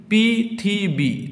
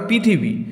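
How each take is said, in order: First: "পৃথিবী" slowly as পৃ, থি, বী; teacher sounding out পৃ–থি–বী; split into syllables. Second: Said in the usual way. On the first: Shown as a demonstration. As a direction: draw out three separate beats in "পৃথিবী". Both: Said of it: "দেখো তিনটি অক্ষর".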